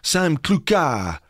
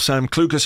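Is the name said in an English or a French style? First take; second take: French; English. First: The name is said in a French way. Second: The name is said in a plain English way.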